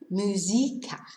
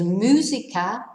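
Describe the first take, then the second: First: The stress is on the second syllable. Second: The stress is on the first syllable. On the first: "otherwise it'd be musica" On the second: "needs an accent on the U"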